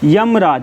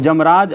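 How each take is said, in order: First: The word begins with a Y sound. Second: The word begins with a J sound.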